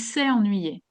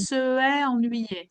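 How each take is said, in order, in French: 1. La voyelle de 'se' est supprimée devant 'est'. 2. La voyelle de 'se' est conservée devant 'est'. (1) "j'enlève le E et je mets un apostrophe" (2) "le E et le E, c'est difficile à prononcer"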